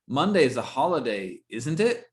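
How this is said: The pitch rises at the end of the tag. The asker doesn't know and wants an answer. "If it goes up on the question, it's a it's a real question"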